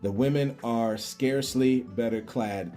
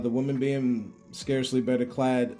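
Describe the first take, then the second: First: It is read at a slower pace. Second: It is read at a faster pace.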